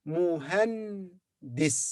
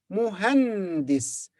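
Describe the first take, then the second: First: "Muhandis" slowly, with a pause before "dis"; broken into syllables. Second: "Muhandis" slow, as one joined word; joined up slowly. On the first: Teacher assembles the word for engineer, "Muhandis" broken before "dis". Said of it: "so it's di". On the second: Teacher gives the whole word, "Muhandis" slow and joined. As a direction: blend "Muhandis" together, lingering on the n. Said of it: "Muhandis means engineer". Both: Shown as a demonstration.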